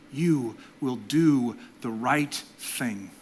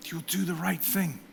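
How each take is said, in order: First: Every word of "you will do the right thing" drawn out slowly; slow, weighty "you will do the right thing"; slow blessing. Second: "You'll do the right thing" repeated much softer; hushed second "You'll do the right thing". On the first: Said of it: "fourth blessing spoken slowly". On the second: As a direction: echo "You'll do the right thing" gently, quieter. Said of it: "repeated softly after". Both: Real, not acted.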